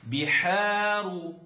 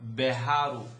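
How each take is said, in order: First: The first vowel sounds like 'ee'. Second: The first vowel sounds like 'eh'. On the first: The speaker calls it right. "Think of the the English letter B" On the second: The speaker calls it wrong. "very common mistake is say be, beharu"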